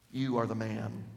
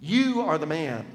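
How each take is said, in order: First: Hushed accusation. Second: Forceful thrust. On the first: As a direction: quietly press YOU home. Nathan confronts David, first take. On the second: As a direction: drive it in like a knife. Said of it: "The thrust". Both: Acted.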